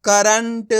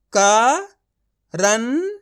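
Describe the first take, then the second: First: Said in the usual way. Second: current drawn out very slowly, sound by sound; slow syllable demo. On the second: Shown as a demonstration. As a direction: stretch current out slowly so each part is heard. (Current को बहुत धीरे खींचकर, अक्षर-अक्षर बोलें) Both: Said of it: "तो मिलके बन जाएगा".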